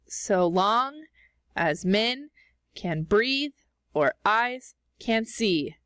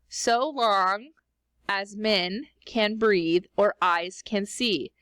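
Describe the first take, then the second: First: Every second syllable is heavily, dramatically stressed. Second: It is read with natural, unexaggerated stress.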